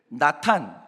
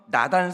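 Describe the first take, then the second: First: The middle consonant is a T sound. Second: The middle consonant is a soft D sound. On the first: This is the Hebrew way of saying the name. "히브리식 발음이 나탄이에요" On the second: This is the Korean way of saying the name. "우리식 발음이고요"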